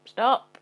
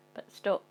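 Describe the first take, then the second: First: A much louder, rising cry of stop; sharp shout. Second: Said in the usual way. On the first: Acted. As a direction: halt yourself with a sudden yell. Sudden change of plan at bin.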